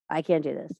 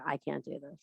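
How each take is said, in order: First: Said in the usual way. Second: Soft, mock-defeated doubter, lower; a hushed, mock-hopeless I can't; imitating a doubter. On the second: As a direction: murmur it like a hopeless student. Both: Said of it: "some of you are sitting there and going".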